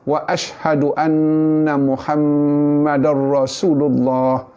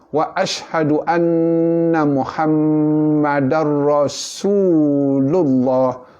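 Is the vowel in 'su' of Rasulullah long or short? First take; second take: short; long. First: The vowel in su is rushed and short. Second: The vowel in su is held two beats. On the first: The speaker calls it wrong. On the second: The speaker calls it right. "Bunyi su itu mat asli, dua harakat"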